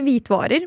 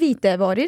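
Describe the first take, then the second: First: There is no vowel between the two parts. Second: An extra vowel joins the two parts. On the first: The speaker calls it wrong. "i dag så må jeg si det riktig, hvitvarer, men det er hvitevarer" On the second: The speaker calls it right. "men det er hvitevarer"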